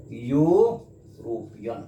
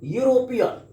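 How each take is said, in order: First: यूरोपियन very slowly, stretching the opening "yoo"; drawn-out sounding-out. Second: Said in the usual way. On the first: Shown as a demonstration. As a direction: split यूरोपियन into slow parts, long y-glide first. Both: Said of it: "यहाँ पर यू यह है".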